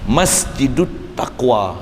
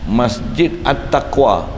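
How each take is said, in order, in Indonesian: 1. Vokal artikel hilang, sehingga kedua kata tersambung. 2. Artikel diucapkan terpisah dengan vokalnya sendiri.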